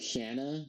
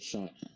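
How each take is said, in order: First: The first vowel is a short flat 'a'. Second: The first vowel is an open 'aw' sound. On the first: The speaker calls it wrong. "They keep calling her Shanna, like her name is not Shanna" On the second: The speaker calls it right. "her name is Shauna"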